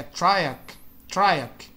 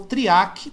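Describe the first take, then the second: First: Triac as TRY-ack; English pronunciation. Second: Triac as tree-AH-kee; Portuguese pronunciation. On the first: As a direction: say triac the American way, "try" first. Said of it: "que eles pronunciam". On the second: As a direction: say triac the Brazilian way. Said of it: "só muda a pronúncia". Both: Shown as a demonstration.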